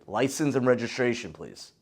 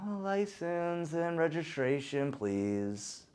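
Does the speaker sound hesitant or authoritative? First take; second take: authoritative; hesitant. First: It is said in a firm, authoritative tone. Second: It is said in a hesitant, unsure tone.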